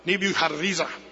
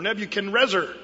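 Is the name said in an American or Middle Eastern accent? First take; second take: Middle Eastern; American. First: The name is said with a Middle Eastern accent. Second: The name is said with an American accent. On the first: "if we were in the Middle East, they'd probably say something like Nebuchadrezzar, like that" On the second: "both of those pronunciations are pretty American"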